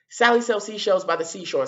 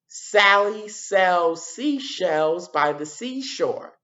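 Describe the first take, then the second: First: Said in the usual way. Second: Very slow, careful tongue twister; slow demo. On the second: Shown as a demonstration. Teacher modelling the tongue twister slowly for the class. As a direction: spell out each s word slowly. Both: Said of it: "what sound do you hear again and again".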